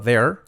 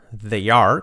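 First: "they're" squeezed into one syllable; contracted form. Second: "They are" as two clear words; full form. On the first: Teacher showing the contraction, one-syllable "they're". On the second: Teacher showing the uncontracted form, full "They are". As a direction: sound "are" fully in "They are". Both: Shown as a demonstration. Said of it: "contraído".

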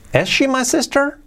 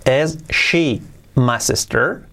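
First: Brisk, joined-up question; fluent second take of a question; quicker repeat. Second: Slow, separated-word question; careful slow dictation, rising at the end; slow model. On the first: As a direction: ask it fluently on a higher pitch. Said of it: "un poquito más rápido que lo repite". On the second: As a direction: ask it word by word for learners. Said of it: "luego un poquito más rápido". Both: Shown as a demonstration.

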